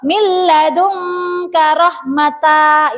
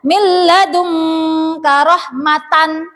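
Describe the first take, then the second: First: The last word ends in a t then vowel. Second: The last word ends in a t then n. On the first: "itu salah ya" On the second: "tidak boleh dibaca"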